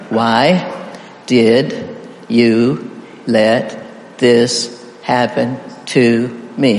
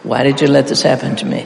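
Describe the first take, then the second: First: Very slow, a pause after every word; spaced-out, deliberate single words for counting. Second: All the words run together without a pause; quick, even practice read; fast run-through. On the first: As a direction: count out each word separately. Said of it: "Count the words". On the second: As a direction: rattle it straight through. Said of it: "we'll practice all the way through fast". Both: Shown as a demonstration.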